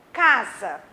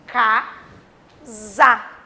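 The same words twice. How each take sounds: First: Said in the usual way. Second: "casa" drawn out in two separate beats, ca, za; loud, broken-up "casa" for teaching; split into syllables. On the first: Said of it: "quando eu falo assim". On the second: Shown as a demonstration. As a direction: say "casa" slowly, syllable by syllable, pausing between them. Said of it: "eu vou falar casa".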